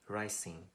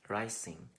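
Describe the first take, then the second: The two takes are said the same way.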